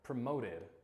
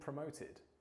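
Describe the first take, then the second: First: The T before the ending sounds like a D. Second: The T before the ending is a crisp T. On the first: "as an American might say ... They turn that T into a D sound" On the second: "British English, like my accent"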